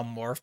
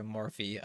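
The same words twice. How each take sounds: First: Morph said as one short syllable, no final vowel; mispronounced name. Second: Morphe said as two syllables, MOR-fee; corrected name. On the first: Streamer getting a viewer's name wrong, short Morph. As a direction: clip the name to just Morph. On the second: Streamer apologizing, correcting to Morphe. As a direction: give Morphe its final ee sound. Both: Shown as a demonstration. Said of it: "Sorry, Morphe".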